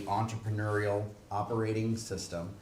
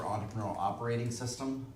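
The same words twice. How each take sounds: First: Slow, deliberate "Entrepreneurial Operating System"; "Entrepreneurial Operating System" slowed down so every word lands; said slowly. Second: Said in the usual way. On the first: Shown as a demonstration. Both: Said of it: "I'll say that again slowly".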